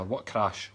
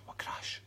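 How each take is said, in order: First: Breathy stage whisper. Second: Barely audible repeat; fainter whisper. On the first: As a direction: whisper it like a secret. Stage whisper reading comments. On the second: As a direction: drop it to almost nothing. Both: Pretend.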